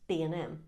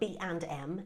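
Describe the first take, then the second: First: The word 'and' is reduced to 'n'. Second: The word 'and' is said in full. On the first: The speaker calls it right. "It's B and M" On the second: The speaker calls it wrong. "It's not B and M, is it?"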